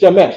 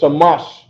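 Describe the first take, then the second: First: The vowels are 'e' sounds, as in 'bed'. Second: The vowels are 'a' sounds, as in 'father'. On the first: "he says sh- Shemesh or Shemosh" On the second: This is how it was said in Babylon. "without the European vowels"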